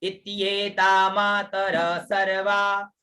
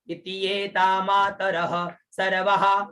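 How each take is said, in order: First: The breathy visarga sound is barely heard. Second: The breathy visarga sound is clearly pronounced. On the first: The verse keeps its meter. The speaker calls it right. "यहाँ पर जो विसर्ग है वो हल्का बोला जाएगा" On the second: The verse's meter is broken. The speaker calls it wrong. "अगर पूरा उच्चारण करोगे तो छंद बिगड़ जाएगा"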